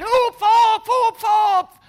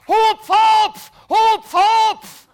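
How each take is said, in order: First: High, loud shouted hupf again from below; firemen shouting. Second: High, loud shouted hupf from below; firemen shouting. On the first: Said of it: "Und die schreien". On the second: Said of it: "die stehen ja da mit einem Sprungtuch und schreien". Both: Retold or imitated. Firemen below yelling at him to jump, high loud shout.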